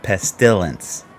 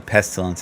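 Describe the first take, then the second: First: The stress falls on an unexpected syllable. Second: The stress falls on the expected syllable. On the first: The speaker calls it wrong. "Put the emphasis on the wrong syllable" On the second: The speaker calls it right. "I will try to say Pestilence"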